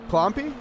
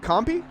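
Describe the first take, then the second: First: The name is said with an L sound. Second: The name is said without an L sound. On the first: "Do you pronounce the L?" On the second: "Is it Compy?"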